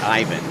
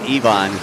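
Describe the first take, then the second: First: The name does not sound like 'even'. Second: The name sounds like the word 'even'. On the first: This is how it looks on the written sheet. The speaker calls it wrong. "not Ivan" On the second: This is how the person says his own name. The speaker calls it right. "he made sure that he let us know it was Ivan"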